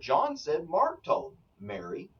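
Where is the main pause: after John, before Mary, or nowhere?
before Mary. There is a pause before the final word Mary. The speaker is addressing Mary directly. "I'm speaking to Mary"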